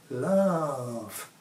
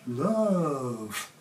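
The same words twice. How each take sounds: The two takes are said the same way.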